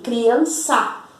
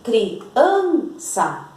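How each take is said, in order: First: The stress is on the last syllable. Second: The stress is on the middle syllable. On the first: The speaker calls it wrong. "se fosse o sa, nós íamos ler assim" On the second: The speaker calls it right. "Nós dizemos criança. Então, a sílaba tônica de criança é an"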